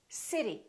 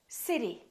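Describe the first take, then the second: First: The T is a quick D-like sound. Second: The same.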